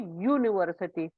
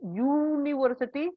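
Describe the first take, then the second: First: The word begins with a Y sound. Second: The word begins with a plain vowel sound. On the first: The speaker calls it right. "we say university. Okay, so the sound is Y" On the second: The speaker calls it wrong. "We don't say university"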